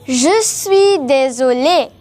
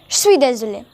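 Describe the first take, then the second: First: The phrase is said slowly with every word clear. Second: The phrase is said quickly with words run together. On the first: "You will say" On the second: "in fast spoken French, you must say"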